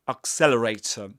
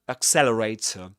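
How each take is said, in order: The two takes are said the same way.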